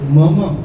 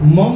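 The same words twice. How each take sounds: First: The word has two full, separate 'ma' syllables. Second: The word is clipped into one short syllable. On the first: The speaker calls it right. "म म पूरे पूरे दो म है" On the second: The speaker calls it wrong. "मम नहीं बोलना"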